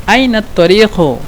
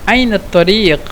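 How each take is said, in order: Both takes have the same delivery.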